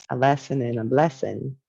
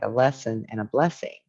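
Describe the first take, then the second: First: Southern voice. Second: Said in the usual way. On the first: Shown as a demonstration. Sharing her favourite saying with viewers, in a light Southern accent. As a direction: say the catchphrase in a mild Southern accent. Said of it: "in my Southern voice". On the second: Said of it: "a lesson and a blessing, as I say".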